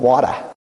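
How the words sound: It is said in a Boston accent.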